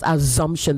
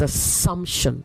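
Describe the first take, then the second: First: The consonant after the first vowel sounds like Z. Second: The consonant after the first vowel sounds like S. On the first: The speaker calls it wrong. "Not assumption. There's no Z anywhere in that word" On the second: The speaker calls it right. "the noun of that is assumption"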